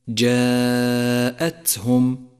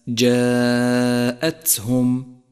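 No difference in how they are said.

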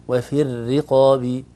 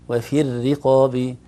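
Both takes have the same delivery.

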